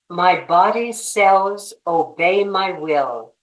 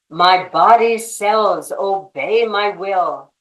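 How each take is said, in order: First: It is said in a calm, normal voice. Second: It is said with more force and volume.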